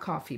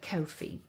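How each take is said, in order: First: The first vowel sounds like 'caw'. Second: The first vowel sounds like 'go'. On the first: The speaker calls it wrong. "not coffee" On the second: The speaker calls it right. "but Ko-fi"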